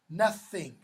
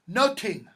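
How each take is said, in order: First: The middle sound is a soft th sound. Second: The middle sound is a plain t, no th. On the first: This is the usual modern way of saying it. "rather than nothing" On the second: This is the older or Scots and Irish way of saying it. "with a real strong Scots or Irish accent today, they'll say noting"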